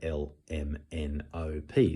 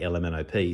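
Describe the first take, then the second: First: Each letter is said separately with gaps. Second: The letters are run together as one word. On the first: The child knows they are different letters. The speaker calls it right. "they're all different letters" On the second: The child thinks it is a single letter. The speaker calls it wrong. "thinking that it's one letter"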